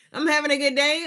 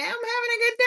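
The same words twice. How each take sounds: First: Said in the usual way. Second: Much higher and fast, squeaky; a playful squeak before saying it straight. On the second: Pretend. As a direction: chirp it out in a tiny high voice. Squeaky answer, then repeated plainly.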